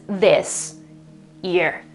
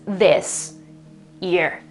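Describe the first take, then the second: First: The s stays separate before year. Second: The same.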